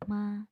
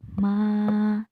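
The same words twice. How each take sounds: First: The vowel is held for one beat. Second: The vowel is held for two beats. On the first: "Jika panjangnya satu harkat, ... Pendek" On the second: "Jika panjangnya dua harkat berarti dua ketukan"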